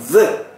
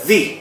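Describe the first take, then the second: First: The vowel is a short, weak 'uh' sound. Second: The vowel is a long 'ee' sound. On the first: The next word begins with a consonant. "ketika bertemu dengan huruf depannya konsonan, itu the" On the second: The next word begins with a vowel. "dibaca the, kayak i"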